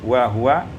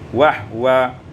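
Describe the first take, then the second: First: A vowel follows the h. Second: No vowel follows the h.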